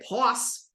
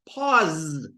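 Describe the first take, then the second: First: The word ends with a voiceless s sound. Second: The word ends with a voiced z sound. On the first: The speaker calls it wrong. "You don't say" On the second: The speaker calls it right. "you say pause because wa and za, same spot in your mouth"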